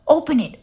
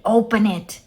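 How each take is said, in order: First: Higher, louder sing-song first "Open it"; first "Open it" lilted up high and loud, like a delighted neighbour; trilled eagerly. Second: Second "open it" dropped back down, a lighter trill; trilled softer. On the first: Missus Watson urging Eugenia to open the package, trilling high. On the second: Missus Watson repeating her plea, gentler trill. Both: A narrator's reading. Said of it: "trilled Missus Watson".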